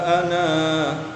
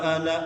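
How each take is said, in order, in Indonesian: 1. Vokal akhirnya ditahan panjang sebelum berhenti. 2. Vokal akhirnya pendek dan mengalir terus. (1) "kalau umpama dia diwakof, maka harus dibaca panjang. Berapa? Dua harokat" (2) "Itu contoh wasol, pendek ananya dibaca"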